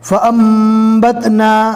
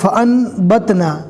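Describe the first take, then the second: First: The nasal before the b sounds like m. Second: The nasal before the b sounds like n. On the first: The speaker calls it right. "नून की जगह पर मीम पढ़ा जाएगा" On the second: The speaker calls it wrong. "बहुत से लोग इसको पढ़ते हैं"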